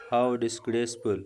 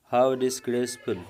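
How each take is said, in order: First: Said in the usual way. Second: Louder, slow, How punched in disgust; slow scornful How disgraceful; disgusted exclamation. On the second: Shown as a demonstration. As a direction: condemn it with scorn, stressing How.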